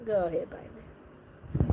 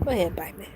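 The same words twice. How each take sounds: First: Breathy whispered go ahead bite me; low slow whisper inviting the bite; whispered dare. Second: Said in the usual way. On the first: Pretend. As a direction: whisper it like a tease. Reacting to vampire scene, whispered.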